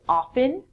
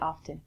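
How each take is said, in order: First: The T sound is silent. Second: The T sound is pronounced. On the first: This is how most people say it. "in North America, people would say often" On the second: This is a less common personal habit. "I actually pronounce the T sound in it"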